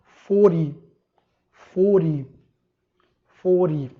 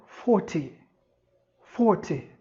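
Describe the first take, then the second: First: Forty with a flapped T, like fordy, said louder; American forty. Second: Forty with a clear T and no R, British style. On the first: Teacher demos the American forty, louder, flapped T. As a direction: say forty with a quick tap, a little louder. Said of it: "Quarenta no inglês americano". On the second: Teacher demos the British forty to students, crisp T. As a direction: say forty like fawty. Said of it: "Quarenta no inglês britânico". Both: Shown as a demonstration.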